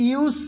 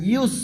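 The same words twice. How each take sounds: First: ইউস said wrong, pitched up; the mistaken ইউস pupils should avoid; showing the wrong ইউস. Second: ইউস said correctly, level and plain; the proper ইউস to copy; right way. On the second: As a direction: correct ইউস after the mistake. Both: Shown as a demonstration. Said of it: "এরকম হবে না".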